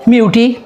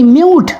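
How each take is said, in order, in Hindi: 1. अंत में एक स्वर ध्वनि सुनाई देती है। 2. अंत में कोई स्वर ध्वनि नहीं सुनाई देती। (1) "अगर हम इसको पढ़ें तो फिर तो कहता है" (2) "ये साइलेंट का हो गया"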